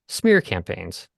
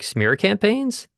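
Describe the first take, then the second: First: The pitch falls at the end. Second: The pitch rises at the end. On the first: The speaker sounds confident. The speaker calls it right. "if they come down at the end, if they resolve" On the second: The speaker sounds unsure. The speaker calls it wrong. "if the first two words go up"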